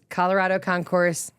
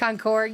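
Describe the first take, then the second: First: The word ends with an audible S sound. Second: The word ends without any S sound. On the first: The speaker calls it wrong. "you don't pronounce the S" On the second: The speaker calls it right. "S is silent"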